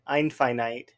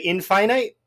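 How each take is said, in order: First: The first vowel is a long eye sound. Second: The first vowel is a short i sound. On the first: The speaker calls it wrong. "That just sounds wrong to me" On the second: The speaker calls it right. "It's all short when it's in the word infinite"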